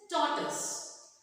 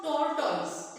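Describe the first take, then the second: First: "tortoise" as TOR-tus; correct pronunciation. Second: "tortoise" slowly as tor-toys; wrong pronunciation. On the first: Teacher corrects the class, "tortoise" as TOR-tus. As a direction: say "tortoise" with a short weak ending, tus. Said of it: "It is tortoise". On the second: Teacher rejects the error, "tortoise" as tor-toys. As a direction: stretch "tortoise" with a full second syllable. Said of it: "But it is not tortoise". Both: Shown as a demonstration.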